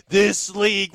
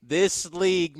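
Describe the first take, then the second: First: Higher, louder, drawn-out league hype; NBA hype quote. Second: Said in the usual way. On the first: Retold or imitated. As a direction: say it like a hyped NBA tweet. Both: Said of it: "what the people in the N B A say".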